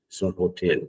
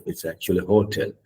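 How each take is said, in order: First: Hotel stressed on the first syllable, HO-tel; wrong hotel. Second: Hotel with stress on the second syllable, ho-TEL; correct hotel. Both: Shown as a demonstration.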